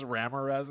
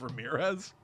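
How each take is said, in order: First: RAM-uh-rez, stressed on the first syllable; Ramirez as RAM-uh-rez. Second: Ruh-MEER-ez, stressed on the middle syllable; Ramirez as ruh-MEER-ez. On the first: Retold or imitated. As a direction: say Ramirez with a short a up front. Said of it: "he says Ramirez instead of". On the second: Shown as a demonstration. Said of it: "instead of Ramirez".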